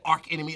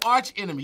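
First: The first word ends with a k sound. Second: The first word ends with a ch sound. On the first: The speaker calls it wrong. "You don't say arc enemy" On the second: The speaker calls it right. "You say arch enemy"

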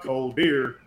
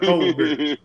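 First: The two words are said separately. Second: The two words are run together as one. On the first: "It's not cold beer" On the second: "it's one word"

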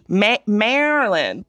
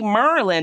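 First: The word is slow and drawn out long. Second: The word is short and clipped. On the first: The speaker calls it right. "It would be Maryland, but definitely drawn out long" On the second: The speaker calls it wrong. "It wouldn't be Merlin"

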